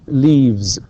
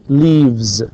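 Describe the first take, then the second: No difference in how they are said.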